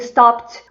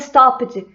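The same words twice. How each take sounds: First: The ending is a plain T sound. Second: The ending is said as written, 'ed'. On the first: The speaker calls it right. "vai ter um som de T" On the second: The speaker calls it wrong. "nossa tendência natural"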